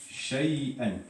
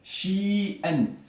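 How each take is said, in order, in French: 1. La première syllabe a une diphtongue 'ay'. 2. La première syllabe a une voyelle 'ee' longue. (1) "le shin, rappelez-vous, trois lettres, et là, il y a al-ya" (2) "Mais shi'an en langue arabe, ça veut rien dire"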